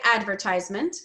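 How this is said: It is said in an American accent. "the way I say it is American English"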